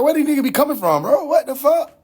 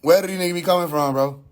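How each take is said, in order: First: Fast, high-pitched disbelief; exasperated outburst. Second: Quick question, falling away at the end; exasperated repeat. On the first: Retold or imitated. Streamer voicing his own reaction to lookalikes, exasperated and baffled. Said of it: "I'm like". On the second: Real, not acted. Streamer repeating his question about lookalikes, brisk and exasperated. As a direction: ask it fast in an everyday pitch.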